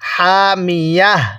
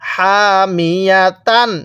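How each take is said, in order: First: The word ends with an h sound. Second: The word ends with a tan sound. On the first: The reader stops at this word. "ওয়াকফের সময় এরকম গোল তাকে হা বানিয়ে দিব" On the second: The reader keeps going without stopping. "এখানে হামিয়া তান পড়ার দরকার ছিল"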